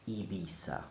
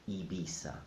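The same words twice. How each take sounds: First: It is said with a Latin American accent. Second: The same.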